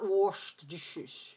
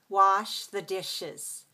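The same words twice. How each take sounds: First: The vowel in wash is rounded with pushed lips. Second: The vowel in wash is open with relaxed lips. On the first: The speaker calls it wrong. "Not ... You don't have to put lips here" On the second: The speaker calls it right. "lips relaxed here for the ah sound"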